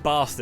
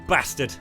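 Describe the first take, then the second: First: It is said with a posh English vowel. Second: It is said with a northern English vowel. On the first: "the vowel pronunciation that kind of like people find uh, is like posh" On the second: "Saying you bastard is very northern"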